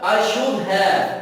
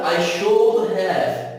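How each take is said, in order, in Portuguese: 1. As palavras são ditas juntas, em forma reduzida. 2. Cada palavra é dita completa e separadamente. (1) "Pronúncia"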